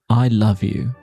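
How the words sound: The word love is stressed. It expresses affection. "If I put emphasis on the word love"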